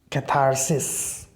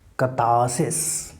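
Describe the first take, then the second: First: An American accent, with the r clearly pronounced. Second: A British accent, with the r not pronounced. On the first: "When you follow American pronunciation, it will be catharsis" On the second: "the British pronunciation that we have here of this term"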